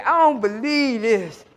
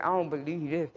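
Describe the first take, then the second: First: Slow, louder, laughing amazement; laughing disbelief. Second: Said in the usual way. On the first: Retold or imitated. Son amazed at cop.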